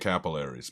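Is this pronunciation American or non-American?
American. It uses the usual American stress pattern. "We say capillaries"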